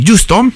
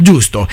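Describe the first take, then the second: First: Giusto with a rising questioning tune; questioning rise. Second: Giusto said low with a firm falling tune; confirming fall. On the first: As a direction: ask giusto as a real question. Host asks listener to confirm title. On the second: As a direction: settle Giusto as a flat confirmation. Host confirms after listener's answer. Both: Real, not acted.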